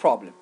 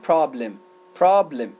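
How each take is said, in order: First: "problem" with a rounded "o"; British "problem", rounded first vowel; British pronunciation. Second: "problem" with an open "ah" vowel; American "problem", open first vowel; American pronunciation. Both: Shown as a demonstration.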